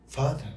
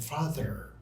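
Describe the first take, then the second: First: The final r is not pronounced. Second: The final r is pronounced with a curled tongue. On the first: "You didn't really curl your tongue" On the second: "But for American"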